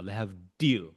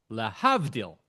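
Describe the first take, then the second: First: Lehavdil with the stress on the last syllable, le-hav-DIL; stress on final syllable. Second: Lahavdil stressed on the middle, la-HAV-dil; Israeli stress on middle syllable. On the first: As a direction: land firmly on DIL in lehavdil. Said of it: "with emphasis on the final syllable". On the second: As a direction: punch HAV in lahavdil, keep dil light. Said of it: "the way Israelis say it". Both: Shown as a demonstration.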